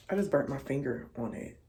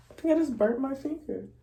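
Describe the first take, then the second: First: Said in the usual way. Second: Higher, quick, stung by the heat; burnt fingertips. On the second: Real, not acted. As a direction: blurt it out right after the burn.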